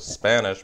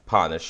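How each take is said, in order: First: The word starts with an s sound. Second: The word starts without an s sound.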